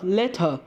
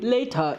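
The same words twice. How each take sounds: First: The first vowel is said fully. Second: The first vowel is reduced. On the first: "instead of later" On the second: "English speakers tend to say later instead"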